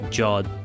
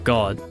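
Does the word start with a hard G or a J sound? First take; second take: J sound; hard G. First: The word begins with a soft J sound. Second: The word begins with a hard G sound. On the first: The speaker calls it wrong. "we don't pronounce that Jod" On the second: The speaker calls it right. "So we go God"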